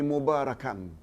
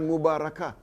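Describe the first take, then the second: First: The word ends with an n sound. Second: The word ends with an h sound. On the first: The speaker calls it right. "tapi mubarakan. Itu yang betul" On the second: The speaker calls it wrong. "Bukan mubarakah"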